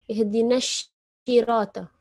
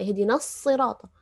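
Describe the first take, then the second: First: Sirata begins with an 'sh' sound. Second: Sirata begins with an emphatic 's' sound. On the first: The speaker calls it wrong. "bukan syirata" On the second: The speaker calls it right. "Sod sama shin"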